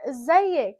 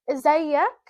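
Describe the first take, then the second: First: "ازيك" said izzayik, with -ik, falling; Egyptian pronunciation. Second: "ازيك" said izzayak, with -ak, rising; Egyptian pronunciation. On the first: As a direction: ask "ازيك" to a woman, Egyptian style. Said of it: "if I'm talking to a female". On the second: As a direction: ask "ازيك" to a man, Egyptian style. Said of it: "In Egypt, we say". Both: Shown as a demonstration.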